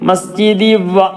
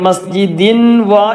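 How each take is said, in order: First: The n sound merges into the following wa. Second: The n sound is clearly heard before wa. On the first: The speaker calls it right. "കൂട്ടി യോജിപ്പിച്ചു" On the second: The speaker calls it wrong. "മസ്ജിദിൻ വ എന്ന് പറയത്"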